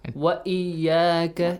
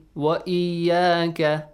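First: A clear glottal stop is heard before iyyaka. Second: A clear glottal stop is heard before iyyaka.

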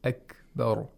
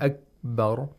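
First: The kaf has a light audible click. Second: The kaf is barely audible. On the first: The speaker calls it right. "was pronounced with the very light clicking sound of kaf" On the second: The speaker calls it wrong. "it cannot be heard"

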